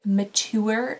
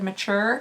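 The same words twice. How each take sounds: First: It is pronounced in a posh, affected way. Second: It is pronounced in a plain, ordinary way.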